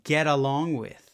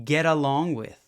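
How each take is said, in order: First: The T is a quick tap linking the words. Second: The same.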